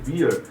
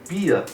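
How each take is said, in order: First: It is said with a standard English pronunciation. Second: It is said with a German-like accent, like 'pia'. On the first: "é beer, que é cerveja" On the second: "se tornou pia"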